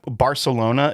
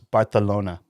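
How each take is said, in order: First: The c is said as a plain s sound. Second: The c is said as a th sound.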